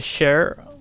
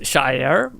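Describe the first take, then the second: First: The vowel sounds like the one in 'share'. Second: The vowel sounds like the one in 'shy'. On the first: "A lot of people just say share" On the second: "Technically, it's Shire"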